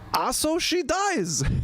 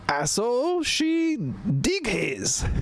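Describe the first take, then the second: First: The last word has one syllable. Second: The last word has two syllables. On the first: The speaker calls it wrong. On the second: The speaker calls it right.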